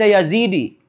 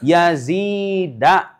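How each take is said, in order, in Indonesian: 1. Nama itu berakhir dengan vokal i. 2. Nama itu berakhir dengan vokal a. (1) "kamu nggak bisa dibaca Yazidi" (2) "tapi Yazi, Yazida"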